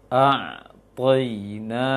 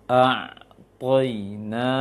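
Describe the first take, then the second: No difference in how they are said.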